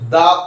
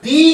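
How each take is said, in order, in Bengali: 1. শব্দটি ছোট uh স্বরে উচ্চারিত হয়। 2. শব্দটি লম্বা ee স্বরে উচ্চারিত হয়। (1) "যে ওয়ার্ডগুলো কনসোনেন্ট দিয়ে শুরু হচ্ছে তার আগে দ বসে" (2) "যেগুলো ভাওয়েল দিয়ে শুরু হয়, যেমন ইগল, এগুলোর আগে দি বসে"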